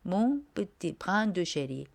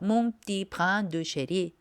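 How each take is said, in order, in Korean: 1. 천천히 또박또박 하면, 'petit'는 두 음절 모두 살아 있어요. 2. 빠르고 이어서 하면, 'petit'는 한 음절로 줄어들어요.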